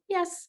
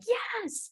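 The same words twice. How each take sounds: First: The word is said flat and unenthusiastic. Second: The word is said with high, excited energy. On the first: The dog did something just okay. "if it's like, okay" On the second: The dog did something great. "super excited about my dog doing something"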